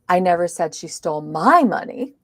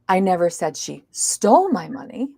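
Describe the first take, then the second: First: The word my carries the stress. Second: The word stole carries the stress. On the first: It was someone else's money. "it was somebody else's money" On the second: She may have borrowed it instead. "maybe she borrowed it"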